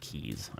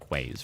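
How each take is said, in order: First: The word sounds exactly like 'keys'. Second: The word begins with a 'kw' sound. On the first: The speaker calls it right. "I think that's actually pronounced stone keys" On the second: The speaker calls it wrong. "I always pronounce it quays from reading it"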